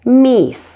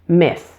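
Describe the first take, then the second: First: The vowel is a long 'ee' sound. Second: The vowel is short and relaxed. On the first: The speaker calls it wrong. "You don't want it to sound like Meese" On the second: The speaker calls it right. "Make sure that it's short and relaxed so it doesn't sound like an E sound"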